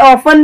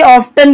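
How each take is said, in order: First: Often said as "offen", the t silent; often without t. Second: Often said as "off-ten", the t clearly sounded. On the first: Teacher showing students the modern often, t kept silent. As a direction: say often with no t sound, "off-en". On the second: Teacher showing students the traditional often, t sounded. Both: Shown as a demonstration. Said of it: "आप often भी बोल सकते हैं और often भी बोल सकते हैं".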